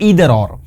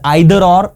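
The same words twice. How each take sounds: First: It is said with an American pronunciation. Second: It is said with a British pronunciation. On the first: "in American English it is pronounced" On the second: "in the British English is it is pronounced"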